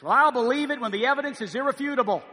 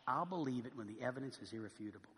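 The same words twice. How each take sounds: First: Mocking skeptic quote. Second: Quiet scornful repeat. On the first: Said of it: "This attitude that says". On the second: Retold or imitated. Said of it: "How pharisaical, how unlike Jesus, how harsh".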